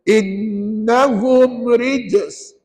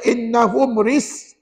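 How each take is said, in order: First: The j sound in the last word is clearly heard. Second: The j sound in the last word is left out. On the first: The speaker calls it right. "dengar ustaz baca" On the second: The speaker calls it wrong. "jangan baca innahum ris. Je-nya kena ada"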